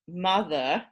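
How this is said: Pitch starts high and falls on the second syllable. "high, low"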